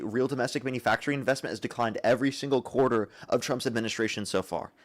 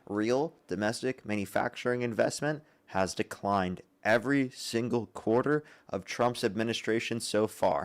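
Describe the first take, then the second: First: It is said at a normal pace. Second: It is said slowly and deliberately.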